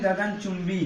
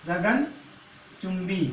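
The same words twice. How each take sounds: First: Said in the usual way. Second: गगनचुंबी drawn out very slowly, syllable by syllable; teacher repeating गगनचुंबी very slowly; slow for students. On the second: Shown as a demonstration. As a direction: spell out गगनचुंबी slowly so the class can follow. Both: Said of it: "अगला शब्द क्या लेते हैं?".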